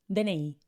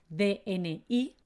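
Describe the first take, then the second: First: It is said the casual, everyday way. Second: It is said the formal, official way. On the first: This is how people say it in daily life. "los españoles lo pronunciamos como D N I" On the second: This is the official name of the card. "se llama D N I"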